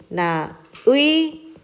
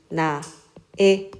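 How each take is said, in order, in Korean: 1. 마지막 모음은 이중모음 'ui'이다. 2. 마지막 모음은 그냥 'ae' 소리이다. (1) "의로 하는 것이 원칙이나" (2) "애로도 허용한다"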